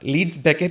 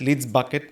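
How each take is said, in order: First: The second word is said as 'Beckett'. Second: The second word is said as 'Bucket'. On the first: The speaker calls it right. "Leeds ব্যাকেট is the name." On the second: The speaker calls it wrong. "They pronounce it at"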